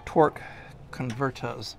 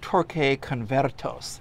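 First: It is said with a plain English accent. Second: It is said with a Spanish-style accent.

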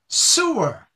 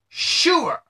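First: The word starts with an s sound. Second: The word starts with an sh sound. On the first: The speaker calls it wrong. "if someone does not put the H in their pronunciation, it becomes sewer" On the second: The speaker calls it right. "with an H in it"

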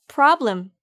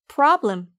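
The two takes are said the same way.

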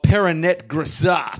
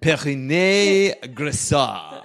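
First: The name is said with an English accent. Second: The name is said with a French accent.

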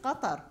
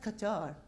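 First: It is said with an Arabic pronunciation. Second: It is said with an English pronunciation. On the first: "I love my accent. I said Qatar" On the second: "not Qatar"

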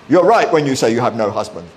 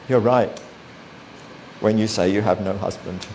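First: It sounds harsh and condemning. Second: It sounds kind and gentle.

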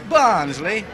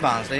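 First: The word is said in a mocking, condescending way. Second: The word is said in a plain, neutral way. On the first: "they say Barnsley, as though you're all thick" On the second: "They don't say Barnsley"

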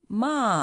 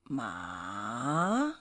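First: The pitch falls sharply from high to low. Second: The pitch dips down and then rises. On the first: "the fourth going down, falling one" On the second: "the third one going down and coming up"

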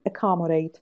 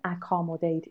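First: The first vowel is a reduced schwa. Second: The first vowel is a full, clear vowel. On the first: The speaker calls it right. "It's a schwa" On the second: The speaker calls it wrong. "It's not accommodate"

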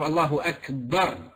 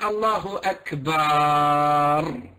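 First: The last vowel of Akbar is kept short. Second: The last vowel of Akbar is drawn out long. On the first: God is the greatest. The speaker calls it right. "instead of Allahu Akbar" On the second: God is drums. The speaker calls it wrong. "if you're saying Allahu Akbar"

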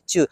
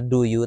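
First: The two words blend into one quick syllable. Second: Both words are said fully and separately. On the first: "kalau cepet ngomongnya jadi chu" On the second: "Bener juga ya do you"

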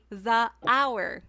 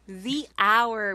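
First: 'The' is said with a short 'thuh' vowel. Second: 'The' is said with a long 'thee' vowel. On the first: The speaker calls it wrong. "So it's not right to say the hour" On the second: The speaker calls it right. "because it's a vowel sound"

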